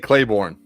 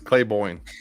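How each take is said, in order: First: The name is said with an R sound. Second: The name is said without an R sound. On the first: The speaker calls it wrong. "I always say Claiborne" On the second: The speaker calls it right. "but it's Claiborne"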